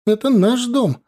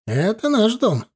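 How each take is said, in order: First: High-pitched mild yell; acted young woman's cry; shouted claim. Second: Firm retort with НАШ lifted high, not shouted; emphatic counterclaim. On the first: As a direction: call it out on the run, high and raised. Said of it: "закричала молодая на бегу". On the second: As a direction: stress on НАШ, pitched up high. Older woman firmly counters the claim. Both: A narrator's reading.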